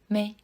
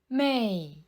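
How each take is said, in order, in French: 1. La syllabe est courte, légère et non accentuée. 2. La syllabe a un ton descendant marqué. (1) "son deuxième caractère se prononce au ton neutre" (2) "Son premier caractère se prononce au quatrième ton"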